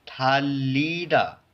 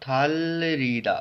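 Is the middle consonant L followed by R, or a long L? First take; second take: long L; L plus R. First: The middle is a single long L sound. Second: The middle is an L followed by an R. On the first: The speaker calls it right. "It is pronounced as" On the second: The speaker calls it wrong. "Simply it is not थालरीदा"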